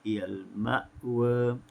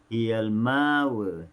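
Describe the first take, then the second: First: The glottal stop in ma'wa is clearly pronounced. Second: The glottal stop becomes a long vowel instead. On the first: "dibaca secara tahqiq" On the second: "dibaca dengan ibdal"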